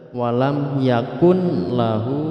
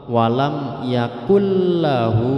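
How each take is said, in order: First: The n is pronounced clearly before the l. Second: The n disappears, merging into a doubled l. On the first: The speaker calls it wrong. "tidak boleh dibaca" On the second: The speaker calls it right. "harus dibaca langsung masuk ke huruf lam"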